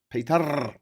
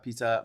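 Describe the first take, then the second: First: The name has a bed-like vowel and rolled R. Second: The name has an English vowel and plain R. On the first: "the E as in bed, the R is slightly rolled" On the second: "I know I'm pronouncing it wrong"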